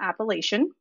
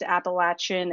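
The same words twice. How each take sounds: First: The word has a non-Southern pronunciation. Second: The word has the Southern Virginia pronunciation. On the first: The speaker calls it wrong. "and not Appalachian" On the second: The speaker calls it right. "from the south where I lived in Virginia, it is pronounced Appalachian"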